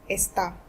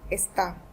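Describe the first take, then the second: First: The stress is on the last syllable. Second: The stress is on the last syllable.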